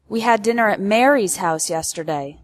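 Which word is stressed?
Mary's. The word Mary's carries the main stress. It corrects the host, not Martha.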